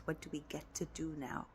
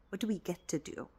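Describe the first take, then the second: First: Hushed, barely voiced question. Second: Said in the usual way. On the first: Shown as a demonstration. Coach showing the viewer the new question, hushed. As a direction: murmur the question to yourself. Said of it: "quiet repetition of key question". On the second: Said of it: "repeated question".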